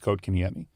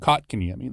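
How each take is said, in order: First: The first syllable sounds like 'coat'. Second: The first syllable sounds like 'cot'. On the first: This is how the player himself says it. "he told us it's" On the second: This is how it is said in Canada. "in Canada they just called him"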